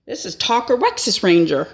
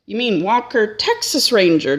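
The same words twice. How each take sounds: First: "Talker Wexus Ranger" with T on Talker and W on Wexus, stated firmly; dad's firm correction, "Talker Wexus Ranger" said flatly as the real name; swapped-letter name. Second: "Walker Texas Ranger" said properly, W on Walker and T on Texas; "Walker Texas Ranger" with its usual first sounds, correcting the mix-up; correct name. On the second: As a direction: say "Walker Texas Ranger" the normal way, as a puzzled question. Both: Retold or imitated.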